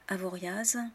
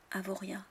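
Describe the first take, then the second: First: The final consonant is pronounced. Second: The final consonant is silent. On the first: This is a common mistake among outsiders. The speaker calls it wrong. "Beaucoup de Français se trompent et prononcent ces noms de villes de travers" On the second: This is how local people say it. The speaker calls it right. "le S ou le X ou le Z final ne sont pas prononcés"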